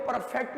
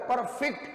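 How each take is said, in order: First: परफेक्ट stressed on the second syllable, per-FECT, like the verb; teacher says परफेक्ट as per-FECT to show the wrong way; wrong stress on perfect. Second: परफेक्ट stressed on the first syllable, PER-fect; teacher says परफेक्ट as PER-fect to show the adjective; adjective stress on perfect. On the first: शिक्षक परफेक्ट को per-FECT बोलकर गलत तरीका दिखाते हैं. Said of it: "ये परफेक्ट नहीं होता". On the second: शिक्षक परफेक्ट को PER-fect बोलकर विशेषण का सही उच्चारण दिखाते हैं. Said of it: "ये परफेक्ट होता है". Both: Shown as a demonstration.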